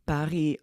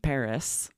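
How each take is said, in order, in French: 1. Paris est prononcé avec un accent français. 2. Paris est prononcé avec un accent américain.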